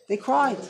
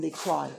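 First: "cried" emphasized with rising pitch; stress on cried. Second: Said in the usual way. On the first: Shown as a demonstration. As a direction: hit "cried" the second time.

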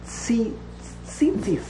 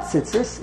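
First: Tzitzis as a slow, separated "tzee-tzees"; long chirik. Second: Tzitzis run together as "tsits-iss"; wrong short vowel. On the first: Teacher correcting the common form, long-vowelled tzitzis. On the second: Teacher rejecting the common form, short-vowelled tzitzis. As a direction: keep the first "i" in tzitzis short. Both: Shown as a demonstration. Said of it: "It's not tzitzis".

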